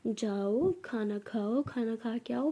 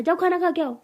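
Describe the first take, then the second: First: Slow, soft, lowered coaxing; loving. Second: Higher, louder impatient order; annoyed. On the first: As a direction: gently coax her as if she were a darling child. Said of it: "ऐसे बोलो ना". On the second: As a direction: send her off with rising irritation. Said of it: "मुझे गुस्सा आ रहा है". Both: Acted.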